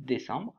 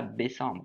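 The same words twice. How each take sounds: First: Said in the usual way. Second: "décembre" mispronounced with a B, as bécembre; wrong first sound. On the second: Shown as a demonstration. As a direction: say "décembre" wrongly, starting with B instead of D. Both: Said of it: "pas le B, hein, le D".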